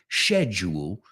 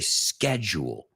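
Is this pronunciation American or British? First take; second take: British; American. First: The word is said with a British pronunciation. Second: The word is said with an American pronunciation. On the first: "los Británicos dicen schedule" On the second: "We say schedule"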